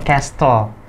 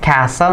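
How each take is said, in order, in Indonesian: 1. Bunyi t-nya dilafalkan. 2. Bunyi t-nya tidak dilafalkan. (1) "not castle" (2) "This one is castle"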